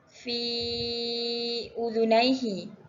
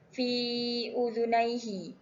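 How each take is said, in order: First: The vowel of 'fi' is held five beats. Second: The vowel of 'fi' is held two beats. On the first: "Untuk lima harakat" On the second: "Untuk panjang dua harakat"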